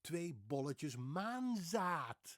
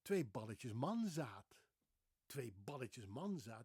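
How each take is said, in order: First: "Twee bolletjes maanzaad" with O in bolletjes and long AA; careful, drawn-out Dutch "Twee bolletjes maanzaad"; intended Dutch pronunciation. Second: Put-on "Twee balletjes manzaat" in a heavy French accent, short A sounds; imitated French-accented "Twee balletjes manzaat"; mispronounced Dutch. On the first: Shown as a demonstration. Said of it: "She wanted to say". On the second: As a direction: say "Twee balletjes manzaat" slowly, getting the vowels wrong. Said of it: "her accent was very heavy".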